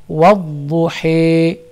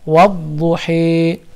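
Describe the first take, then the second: The two takes are said the same way.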